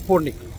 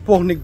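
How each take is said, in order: First: The name is said with an English pronunciation. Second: The name is said with a French pronunciation. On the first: "যদি আমি ইংলিশ উচ্চারণ করি" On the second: "ফ্রান্সের ভাষা যদি উচ্চারণ করা হয়"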